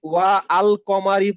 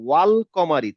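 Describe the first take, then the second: First: The alif vowel is pronounced as a separate sound. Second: The words run together without the alif vowel. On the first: The speaker calls it wrong. "পড়লে হবে না" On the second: The speaker calls it right. "হামজাতুল ওয়াসিল আমি পড়বো না"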